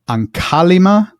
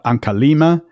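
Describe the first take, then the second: First: The stress falls on the syllable ka. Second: The stress falls on the syllable li. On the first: The speaker calls it right. "the li is is is light" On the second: The speaker calls it wrong. "not Ankalima"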